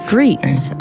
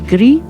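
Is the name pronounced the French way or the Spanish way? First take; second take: Spanish; French. First: The name is pronounced the Spanish way. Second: The name is pronounced the French way. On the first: "So in Spanish, it is Greece" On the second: "if you were to pronounce it in French, it'd be Gris"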